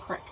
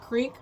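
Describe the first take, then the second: First: The vowel is a short i sound. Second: The vowel is a long ee sound. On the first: "That's what it's called. It's a crick" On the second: "A creek or a crick?"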